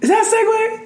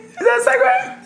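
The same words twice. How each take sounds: First: High disbelieving question; mock surprised. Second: Higher, laughing incredulous repeat; laughing disbelief. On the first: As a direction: act baffled by the segue. Questioning the awkward topic change. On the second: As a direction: crack up while asking. Repeats, cracking up. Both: Real, not acted.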